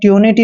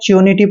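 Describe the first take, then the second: First: The syllable begins with a plain 't' sound. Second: The syllable begins with a 'ch' sound. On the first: The speaker calls it wrong. "आपने ट्यूनिटी नहीं पढ़ना है" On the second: The speaker calls it right. "च्योनिटी पढ़ना है"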